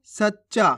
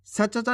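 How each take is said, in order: First: सच्चा with a held double च, "sach-cha"; सही उच्चारण. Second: सच्चा broken up as "sa-cha-cha"; गलत उच्चारण. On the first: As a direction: say सच्चा in two beats, first च half. (सच्चा में आधा च, "सच्-चा") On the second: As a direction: misread सच्चा with the first च given a full vowel. (सच्चा को "स-च-चा" बोलकर) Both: Shown as a demonstration. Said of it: "सच्चा नहीं".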